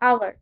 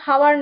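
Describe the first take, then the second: First: The word begins with a vowel sound. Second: The word begins with an h sound. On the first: The speaker calls it right. "উচ্চারণটা হবে আওয়ার" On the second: The speaker calls it wrong. "এটা কিন্তু হাওয়ার না"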